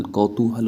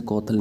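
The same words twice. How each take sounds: First: कौतूहल slowly as "kau-too-hal"; slow, full three-syllable कौतूहल; correct form. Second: कौतूहल without the "oo", "kautal"; कौतूहल losing its middle syllable; wrong form. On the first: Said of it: "कौतूहल होता है". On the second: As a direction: say कौतूहल squashed as "kau-tal". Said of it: "ऐसे कौतूहल नहीं लिखते". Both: Shown as a demonstration.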